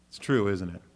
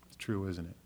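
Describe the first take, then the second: First: Said in the usual way. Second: Said again much softer, almost to himself; quiet repeat. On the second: Shown as a demonstration. Pastor repeats the point softly to the congregation. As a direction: let the question drop to a soft murmur.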